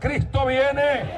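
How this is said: It is said eagerly, with expectation.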